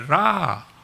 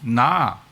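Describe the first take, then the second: First: The syllable begins with an r-like sound. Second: The syllable begins with an n sound. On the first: The speaker is Japanese. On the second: The speaker is Korean.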